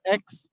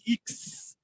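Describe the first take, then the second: First: The letter name is said the English way. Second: The letter name is said the French way. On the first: The speaker calls it wrong. "not X" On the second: The speaker calls it right. "This is called X"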